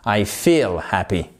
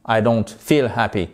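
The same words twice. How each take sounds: First: "feel" with a long ee, slow and low. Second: "feel" with a short i, as "fill", pitched low. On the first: Teacher models the correct vowel for learners, long I in "feel". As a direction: stretch the vowel of "feel" into a full ee. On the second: Teacher shows learners the mistaken vowel, short I in "feel". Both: Shown as a demonstration. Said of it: "Voyez la différence?".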